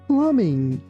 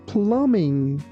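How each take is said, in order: Both takes have the same delivery.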